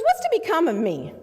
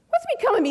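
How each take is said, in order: First: Said in the usual way. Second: The question jumps much higher, pleading; high desperate plea. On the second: Retold or imitated. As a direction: cry it out in desperation, pitched way up. Despairing client repeats plea.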